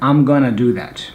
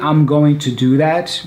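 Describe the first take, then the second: First: "Going to" is run together as gonna. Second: "Going to" is said as two full words. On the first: "or even I'm gonna do that" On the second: "you can say ... That's correct"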